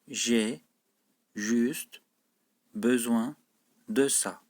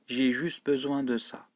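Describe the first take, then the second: First: The sentence is spoken at a slow pace. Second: The sentence is spoken at a fast, normal pace. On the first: "Sonra da yavaş okuyorum cümleyi" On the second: "Önce hızlı okuyorum, yani normal seviyede okuyorum"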